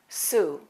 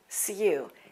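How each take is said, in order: First: An American accent with no y sound before oo. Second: A British accent with a y sound before oo. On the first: "But in American English, it's pronounced like this" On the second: "In British English, that U is pronounced like this, ... It has a little Y sound"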